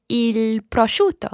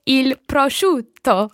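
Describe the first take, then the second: First: "prosciutto" with a weak single T. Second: "prosciutto" with a lengthened double T; bounced double T. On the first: Learner attempts "I like ham" for the teacher, "prosciutto" with a single T. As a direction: say "prosciutto" without holding the double T. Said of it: "Ok, almost". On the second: Learner retries after correction, bouncing on the T in "prosciutto". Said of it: "much better". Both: Real, not acted.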